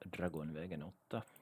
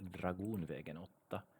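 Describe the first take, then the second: First: The first part sounds like 'dragon'. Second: The first part sounds like 'dragoon'. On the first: The speaker calls it wrong. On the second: The speaker calls it right. "the correct pronunciation is actually"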